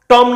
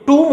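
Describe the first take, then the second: First: टॉम with open aw sound; wrong vowel. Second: टूम with long oo, silent b; correct vowel. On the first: Teacher rejecting the exam word's misreading, open-o टॉम. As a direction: say टॉम as tawm. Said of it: "टॉम नहीं होता दोस्तों". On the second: Teacher giving the right word for tomb, long-oo टूम. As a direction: say टूम as toom. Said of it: "ये टूम होता है". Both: Shown as a demonstration.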